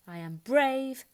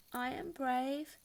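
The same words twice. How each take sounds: First: Sung, slow, loud sing-song; slow loud chant of bravery. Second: Slow, shaky-sounding, not quite believing; unsure self-reassurance. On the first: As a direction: sing it out proudly. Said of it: "she sang". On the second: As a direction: try to talk yourself into it. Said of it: "tried to convince herself". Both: A narrator's reading.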